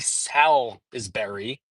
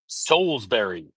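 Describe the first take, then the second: First: The name is said in a nonlocal way. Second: The name is said in the local way. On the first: The speaker calls it wrong. "I'm not going to screw up the pronunciation" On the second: The speaker calls it right. "I'm going to pronounce it the right way"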